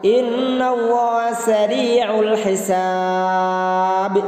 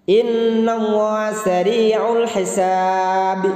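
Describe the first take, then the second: The two takes are said the same way.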